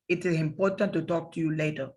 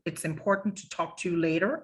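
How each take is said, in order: First: It is said with a Spanish accent, sound central. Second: It is said with an English accent, sound forward.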